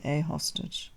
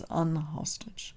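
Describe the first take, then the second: First: The article is 'a' before hostage. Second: The article is 'an' before hostage. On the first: This is how it is said today. "but in reality we pronounce it a hostage" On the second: This is the wording printed in the old book. "They want to say unhostage"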